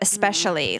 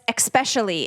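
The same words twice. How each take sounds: First: It begins with an 'es' sound. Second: It begins with an 'eks' sound. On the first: The speaker calls it right. "instead of especially" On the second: The speaker calls it wrong. "Says especially instead of especially, like saying espresso"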